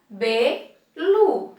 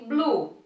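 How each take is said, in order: First: The B is split off from the syllable lu. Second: The B and L are blended into one syllable. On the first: The speaker calls it wrong. "se eu separar" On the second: The speaker calls it right. "o som que eu quero em blusa é blue"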